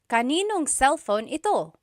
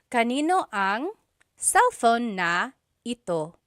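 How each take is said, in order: First: The words are run together and shortened. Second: Every word is said separately and in full. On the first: This is how people say it in casual conversation. "just quickly speaking" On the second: This is the technically correct form. "the technically correct way to say these things"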